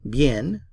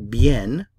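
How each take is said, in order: First: The final n is fully pronounced. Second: The final n is fully pronounced.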